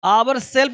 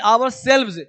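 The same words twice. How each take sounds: First: "Our self" said as the wrong singular form. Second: "our selves" said as the correct plural form. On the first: Teacher showing students the wrong form "Our self". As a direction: give "Our self" as the mistake to avoid. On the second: Teacher correcting students with the plural "our selves". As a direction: give "our selves" as the right answer. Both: Shown as a demonstration. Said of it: "Our self नहीं".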